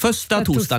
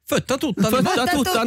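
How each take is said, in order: First: The s sound in the first word is pronounced. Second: The s sound in the first word is dropped.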